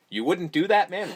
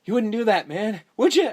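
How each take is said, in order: First: Your own voice, repeated in disbelief; deadpan skeptical repeat; incredulous. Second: Higher, louder pleading quote; mildly voiced nervous plea; Carlos quote. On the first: Shown as a demonstration. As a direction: question how anyone could say that. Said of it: "My question is". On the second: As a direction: beg him not to do it. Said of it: "And Carlos is like".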